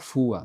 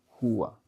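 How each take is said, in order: First: The word begins with an f sound. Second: The word begins with a throaty r sound. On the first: The speaker calls it wrong. "tem muito japonês que fala fua, não é fua" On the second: The speaker calls it right. "Ele sai pela garganta"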